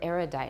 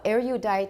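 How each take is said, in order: First: No y glide follows the r sound. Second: A y glide follows the r sound. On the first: "the y is going to be dropped for some people" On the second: "because of the rising glide"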